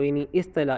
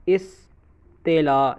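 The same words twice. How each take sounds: First: Said in the usual way. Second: اصطلاح drawn out very slowly, syllable by syllable; term spelled out slowly. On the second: Shown as a demonstration. Teacher slowly spells the term out for students. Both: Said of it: "ہم اس کو اصطلاح بھی کہتے ہیں".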